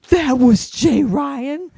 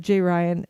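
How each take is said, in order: First: High, drawn-out, rising disbelief; astonished realization. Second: Said in the usual way. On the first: Retold or imitated. Kid learning whom they just chatted with, drawn-out astonishment. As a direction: imitate a stunned kid, stretched right out.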